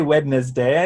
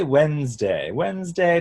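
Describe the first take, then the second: First: "Wednesday" in three beats, wed-nez-day; old-fashioned pronunciation. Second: Said in the usual way. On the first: Shown as a demonstration. Coach shows what to avoid, "Wednesday" old-style with its D sounded. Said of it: "that's more Old English". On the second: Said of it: "just normal".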